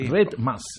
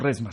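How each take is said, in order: First: The consonant before the m is a d. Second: The consonant before the m is an s. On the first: It is the channel's real name. The speaker calls it right. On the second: It sounds like a ream of paper. The speaker calls it wrong.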